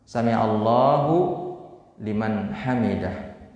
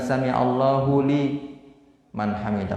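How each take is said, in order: First: The phrase breaks after the word 'sami'allahu'. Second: The phrase breaks after the syllable 'li'. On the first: The speaker calls it right. "Jadi berhentinya di hu" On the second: The speaker calls it wrong. "Bukan sami'allahu li man hamidah, bukan itu"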